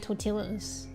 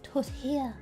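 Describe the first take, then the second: First: The word is pronounced following its English spelling. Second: The word is pronounced differently from its spelling. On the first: The speaker calls it wrong. "I used to think it was because it's spelt that way. I used to say tortillas" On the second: The speaker calls it right. "I discovered it's called tortilla"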